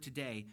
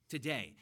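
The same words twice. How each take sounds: First: Said in the usual way. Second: Today said firmly, with weight and a falling end; emphatic today. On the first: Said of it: "he uses this word". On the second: Shown as a demonstration. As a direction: lean hard on Today. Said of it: "It's emphatic".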